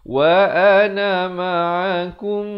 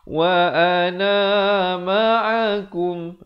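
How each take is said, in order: First: The final vowel of ana is kept short. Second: The final vowel of ana is drawn out long. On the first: The speaker calls it right. "ni jangan panjang ... Bacaan yang betul" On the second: The speaker calls it wrong. "Jangan pula kita baca ... Itu salah"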